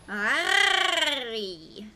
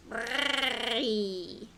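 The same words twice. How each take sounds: First: "Arry" with the R rolled in the throat, louder; throaty rolled R. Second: "Arry" with a softer throat-rolled R and a rising end; a quieter guttural try at "Arry"; softer throaty R. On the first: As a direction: drag the R of "Arry" through the back of the throat. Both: Shown as a demonstration. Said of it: "See, I can roll my R's".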